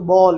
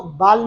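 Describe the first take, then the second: First: बॉल said with a rounded aw vowel; correct "ball". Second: बाल said with a flat open aa; wrong "baal". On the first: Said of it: "आपने इसको बॉल कहना है". (सही "बॉल" उच्चारण) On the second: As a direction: say बाल as "baal", not "ball". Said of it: "आपने इसको बाल नहीं कहना". (ग़लत "बाल" उच्चारण) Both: Shown as a demonstration.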